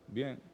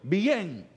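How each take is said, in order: First: It sounds downcast and unconvinced. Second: It sounds content and upbeat. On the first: The person is not really fine. "Le dije la misma palabra. Ahora, ¿usted sintió la diferencia?" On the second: The person really is fine. "O sea, está bien"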